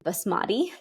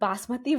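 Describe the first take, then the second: First: It is said with a Western pronunciation. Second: It is said with a South Asian pronunciation. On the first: "People in the West pronounce it"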